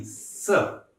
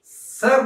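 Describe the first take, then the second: First: "सर" as "suh", final r swallowed; open-ended "सर" with a silent r; dropped R. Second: "सर" with the r pronounced at the end; drawn-out "सर" with an audible final r; the wrong way, "सर" closing on a clear r; R sounded. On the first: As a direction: let "सर" end on the vowel, no r. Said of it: "र को खा जाना है". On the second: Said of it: "सर नहीं". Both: Shown as a demonstration.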